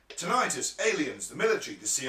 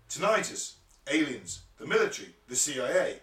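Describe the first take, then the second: First: The list is read fast. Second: The list is read slowly.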